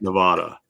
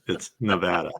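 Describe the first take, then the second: First: The middle vowel is an open 'ah' sound. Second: The middle vowel sounds like 'apple'. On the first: The speaker calls it wrong. "it's not" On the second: The speaker calls it right. "we have apples"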